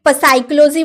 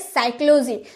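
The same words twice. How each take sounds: First: A P sound is heard at the start. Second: No P sound is heard at the start. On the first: The speaker calls it wrong. "क्या आपने कभी साइक्लोजी बोला है?" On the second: The speaker calls it right. "क्योंकि पी तो चुप रहता है, हम बोलते हैं साइक्लोजी"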